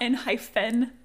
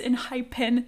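First: The middle consonant is an f sound. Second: The middle consonant is a p sound. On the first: The speaker calls it wrong. "not Enhypen" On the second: The speaker calls it right. "It's Enhypen"

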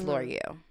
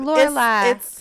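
First: The name ends with an 'real' sound. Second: The name ends with a final 'lai' sound. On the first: This is how the owner of the name says it. The speaker calls it right. "No, it's L'Oreal" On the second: Other people say the name this way. The speaker calls it wrong. "they be like, Lorelai. I don't answer"

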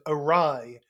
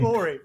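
First: It ends in a 'rye' sound. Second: It ends in an 'ee' sound. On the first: The speaker calls it right. "when I first heard someone say the word awry out loud" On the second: The speaker calls it wrong. "I was pronouncing it Ori"

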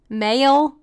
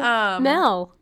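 First: The vowel sounds long, like 'ay'. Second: The vowel sounds short, like 'eh'. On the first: "That's more country than Mel" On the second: "why are you saying Mel?"

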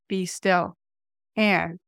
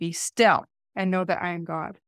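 First: The word "and" is stressed. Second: The word "be" is stressed.

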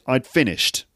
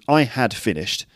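First: Had nearly vanishes, sounding like 'I finished'. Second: The word had is said in full. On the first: "in really fluent speech" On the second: "There's the full version"

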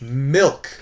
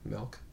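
First: The vowel sounds like 'ih', as in 'milk'. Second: The vowel sounds like 'eh', as in 'melk'. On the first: "Did it the proper way" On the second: "I heard the E in there"

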